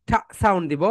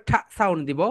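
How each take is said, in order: Both takes have the same delivery.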